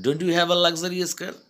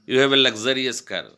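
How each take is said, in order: First: "Don't you have" pitched high and loud; emphasized. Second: Said in the usual way. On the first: Shown as a demonstration. Teacher showing how to stress the sentence, "Don't you" high and emphatic. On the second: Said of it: "I can say simply".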